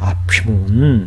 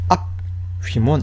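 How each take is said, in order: First: The p runs straight into the next syllable. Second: There is a break after the first syllable. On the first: The speaker calls it right. "읽을 때는 앞휘문 이렇게 읽어야 되는 거예요" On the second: The speaker calls it wrong. "이렇게 읽어서는 안 돼요"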